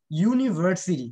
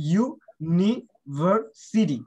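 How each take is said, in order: First: Said in the usual way. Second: university very slowly, in four separate parts; slow, louder breakdown of university; syllable by syllable. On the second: Shown as a demonstration. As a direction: sound out ইউ, নি, ভার, city with gaps. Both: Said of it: "চারটা syllable আছে".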